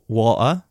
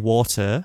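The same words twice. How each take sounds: First: The middle T is dropped or glottalled. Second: The middle T is clearly pronounced. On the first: "I don't go water" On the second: "I say water"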